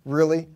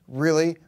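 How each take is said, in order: Both takes have the same delivery.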